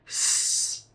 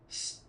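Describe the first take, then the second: First: The hissing sound is loud and long. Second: The hissing sound is quiet and short. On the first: The speaker calls it right. "make it loud and long" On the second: The speaker calls it wrong. "Don't be quiet like s"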